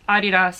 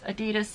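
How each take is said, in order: First: It uses the pronunciation heard outside America. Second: It uses the pronunciation heard in America. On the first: "Adidas is how it is pronounced everywhere else in the world" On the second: "Adidas is only said here in the States"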